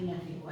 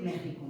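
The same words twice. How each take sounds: First: "México" as MEK-si-co; "México" with a K before the S; wrong KS reading. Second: "México" as ME-ji-co; "México", its X as a velar J. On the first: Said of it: "no Texas ni México". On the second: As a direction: say "México" with the Spanish throaty J. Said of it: "tenemos que decir México". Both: Shown as a demonstration.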